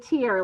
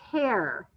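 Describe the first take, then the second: First: The vowel is a long E sound. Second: The vowel is not a long E sound. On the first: "to make it follow our rule, it is a tear" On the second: "that word can also be pronounced as tear"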